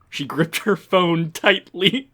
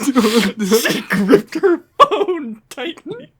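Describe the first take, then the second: First: Said in the usual way. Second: High, slow, laughing through it; cracking up while reading. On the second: Acted. Hammed-up reread, laughing.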